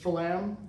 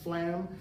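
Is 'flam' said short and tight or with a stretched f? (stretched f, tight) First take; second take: stretched f; tight. First: The f sound is drawn out and stressed. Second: The word is short and tight. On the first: The grace note is placed a little further from the main note. "where they put a little more emphasis on the f part of it" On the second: The grace note is placed very close to the main note. "which is a real tight"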